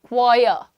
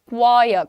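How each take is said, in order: Both takes have the same delivery.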